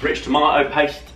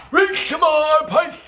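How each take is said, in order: First: Said in the usual way. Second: High, stretched-out silly squawk; silly put-on voice. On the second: Vlogger repeating an ingredient for fun, silly voice. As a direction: call it out slow and very high.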